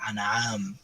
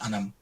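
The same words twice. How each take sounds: First: The name is said with a drawn-out vowel. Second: The name is said short and plain. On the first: The person being called is in trouble. "she would pull it out a little bit" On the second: Someone is simply calling the person. "it would just be anam"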